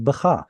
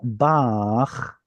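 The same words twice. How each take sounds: First: "bacha" with the stress on the final -cha; short first syllable in "bacha", weight on cha; non-pausal form. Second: Bach drawn out as one syllable; pausal form. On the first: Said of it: "instead of bacha". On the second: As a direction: say "bach" long, stressed on its only vowel. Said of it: "Why is it imach?". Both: Shown as a demonstration.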